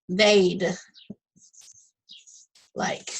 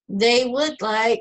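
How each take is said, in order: First: Would is shortened and joined onto they. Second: Would is said in full as a separate word. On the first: "you would say they'd like" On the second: "instead of saying they would like"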